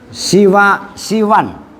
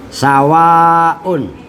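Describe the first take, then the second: First: The first syllable has an i vowel. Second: The first syllable has an a vowel. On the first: "bikasri sini dengan dibaca kasroh ma'al maddi beserta mat panjang" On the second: "Pembandingnya samaun"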